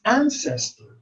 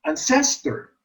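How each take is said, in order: First: "ancestor" as AN-ces-tor; correct first-syllable stress. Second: "ancestor" as an-CES-tor; wrong stress demo. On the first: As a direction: put the AN of "ancestor" up high, then fall. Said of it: "the first syllable is accented". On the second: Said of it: "We don't say". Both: Shown as a demonstration.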